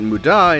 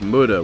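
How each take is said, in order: First: It is pronounced closer to the Japanese way. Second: It is pronounced in an anglicized way. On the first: "which is closer to the Japanese and I personally prefer it" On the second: "Muda is easier to say in just a regular sentence"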